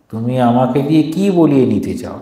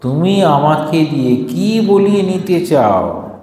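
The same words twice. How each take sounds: First: Said in the usual way. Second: Slow, higher, hurt rebuke; mother stung, pushing back slowly; offended mother. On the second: Acted. Mother rebukes the abbot, slow and offended. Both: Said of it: "মা ক্ষুদ্র হইয়া বলিলেন".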